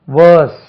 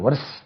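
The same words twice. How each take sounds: First: "வேர்ஸ்" loud, long vowel and silent r; careful model pronunciation. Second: "வர்ஸ்" short, with the r sounded; readers' mispronunciation. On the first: Shown as a demonstration. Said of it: "இதுக்கு உச்சரிப்பை கவனிக்கணும்". ("வேர்ஸ்" என்பதில் ர் ஒலிக்காமல் நீண்ட உயிரொலி) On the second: Retold or imitated. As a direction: imitate a mistaken "வர்ஸ்", short vowel plus r. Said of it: "வாசிக்கும் போது மக்கள் வந்து". ("வர்ஸ்" என ர் ஒலியுடன் தவறாக)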